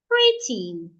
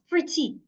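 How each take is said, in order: First: The stress is on the first syllable. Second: The stress is on the second syllable. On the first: The speaker calls it right. "I will say the first part, pre, louder, longer, clearer" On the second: The speaker calls it wrong. "not pretty"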